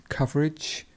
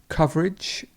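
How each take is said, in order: The two takes are said the same way.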